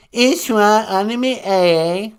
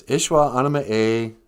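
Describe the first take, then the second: First: Deliberate word-of-the-day read; careful Ojibwe pronunciation. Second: Said in the usual way. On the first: Shown as a demonstration. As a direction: pronounce Ishwa Anima A like a teacher. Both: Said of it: "I just wanna pronounce them".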